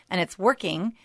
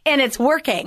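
First: Said in the usual way. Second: Much higher and louder, with an exclamation point; emphatic exclamation. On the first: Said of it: "Well, I should say". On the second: Shown as a demonstration. Host cheering the guest's theater program, emphatic exclamation. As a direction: belt it out triumphantly. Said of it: "Exclamation point".

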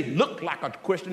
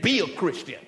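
First: "Look" leaned on, lower and softer; lightly mock the word "Look"; stress on LOOK. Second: "Be" given the weight, firm and falling; stress on BE. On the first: Pastor contrasting appearance with being, stress on "Look". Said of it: "God didn't say". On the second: Acted. Pastor correcting the congregation, firm stress on "Be". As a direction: land hard on "Be". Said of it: "He said".

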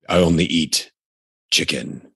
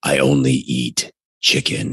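First: Jocko Willink voice. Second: Lower, gruff tough-guy read; Jocko Willink voice. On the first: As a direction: drop into a stern ex-SEAL growl. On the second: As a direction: impersonate a stern ex-SEAL. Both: Shown as a demonstration. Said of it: "I almost went into my Jocko Willink voice there".

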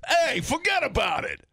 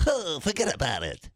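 First: High, shouted mock-American holler; brash American catchphrase. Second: Mock French accent on an American catchphrase. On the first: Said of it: "what would their version of that be over here". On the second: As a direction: say it as a hammed-up Frenchman. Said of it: "in a French accent".

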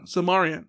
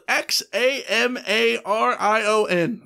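First: Xamarion pronounced carefully; Xamarion, said slowly and carefully. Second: Spelling it out slowly. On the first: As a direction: say Xamarion clearly. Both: Shown as a demonstration. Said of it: "Say that ten times fast".

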